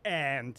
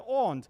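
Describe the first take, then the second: First: The vowel is flat, sounding like 'ant'. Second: The vowel is broad and open, like 'ahnt'. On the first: The speaker calls it wrong. "it's not a little animal, the ant" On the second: The speaker calls it right. "I still say aunt"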